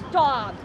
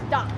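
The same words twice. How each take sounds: First: It sounds amazed and delighted. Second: It sounds annoyed and commanding. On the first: The speaker loves what is happening. "I cannot believe it. This is awesome" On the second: The speaker wants the other person to be quiet. "Be quiet"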